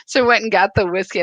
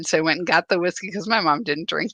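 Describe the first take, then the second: First: Faster and louder, gleeful; a quick, laughing-edged retelling; gleeful repeat. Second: Said in the usual way. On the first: Real, not acted. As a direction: rattle off "So I went and got the whiskey." with glee. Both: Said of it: "I thought this was hilarious".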